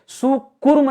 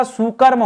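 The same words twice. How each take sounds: First: सुकुर्म said with u after the k; wrong form. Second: सुकर्म with a short a after the k; correct form. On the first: Teacher showing students the wrong word, सुकुर्म with 'kur'. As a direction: say सुकुर्म with a 'kur' middle syllable. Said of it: "सुकुर्म नहीं होता". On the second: Teacher correcting the word for students, सुकर्म with 'kar'. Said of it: "सुकर्म होता है". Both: Shown as a demonstration.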